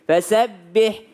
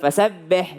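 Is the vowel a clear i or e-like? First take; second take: clear i; e-like. First: The vowel is a full, clear i. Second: The vowel sounds closer to e. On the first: The speaker calls it right. "harus sempurna a dan i" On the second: The speaker calls it wrong. "bukan fasabbih ya; Seakan-akan dia e gitu"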